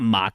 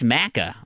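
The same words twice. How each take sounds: First: The A vowel is said long. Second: The A vowel is said short. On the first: The speaker calls it wrong. "It's not maca" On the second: The speaker calls it right. "it's maca"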